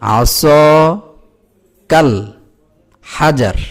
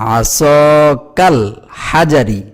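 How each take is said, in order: First: The last word ends on a bare 'r'. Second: The last word ends with an 'i' vowel. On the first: The speaker calls it right. "যেহেতু আমি এখানে থামছি" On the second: The speaker calls it wrong. "জের উচ্চারণ করব না, রি এই উচ্চারণটা করব না"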